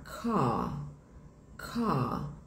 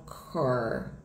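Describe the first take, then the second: First: Car as kah, mouth relaxed, no R; open, soft car with the R dropped; British English pronunciation. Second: Car with a hard R; contrast, say car rolling the R; American English pronunciation; American car, shown as the wrong one. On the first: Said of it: "mais soft". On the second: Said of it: "e não car". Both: Shown as a demonstration.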